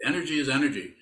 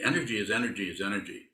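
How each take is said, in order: First: "Energy is energy" with the first "Energy" pitched up and louder and a falling close; insistent repeat with "Energy" punched; emphatic repeat. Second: Said in the usual way. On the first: Shown as a demonstration. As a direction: drive the point home by hitting "Energy". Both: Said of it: "Did I say that enough?".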